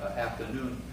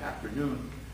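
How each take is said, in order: First: The r sound after 'af' is dropped. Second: The r sound after 'af' is pronounced. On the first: "the southern pronunciation" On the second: "a more northern pronunciation"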